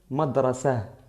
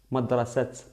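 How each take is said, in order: First: The word ends on a vowel, no final t. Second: The word ends with a clear t sound. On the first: The speaker calls it right. "Aquí madrasa" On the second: The speaker calls it wrong. "madrasat es incorrecto"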